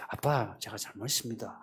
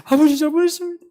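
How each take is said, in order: First: Much softer, lower, contrite son; humble apology. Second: Fake crying apology. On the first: Retold or imitated. Son apologizing to his angry father, soft and low. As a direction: say sorry quietly, head bowed. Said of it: "가서". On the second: Son pretending to cry so his father forgives him. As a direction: ham up a tearful sorry. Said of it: "우는 척이라도".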